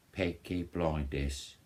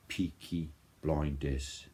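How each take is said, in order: First: Playful, slow Birmingham accent, not authentic; slow mock Birmingham accent on "Peaky Blinders"; goofy Birmingham accent. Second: Said in the usual way. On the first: Shown as a demonstration. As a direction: put on a Brummie accent just for fun. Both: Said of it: "trying to do a authentic accent".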